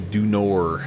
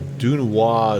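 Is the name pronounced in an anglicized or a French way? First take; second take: anglicized; French. First: The name is pronounced in an anglicized way. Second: The name is pronounced the French way. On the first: "when you're in Rome, uh, we we say Dunor" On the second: "I think that's the French pronunciation"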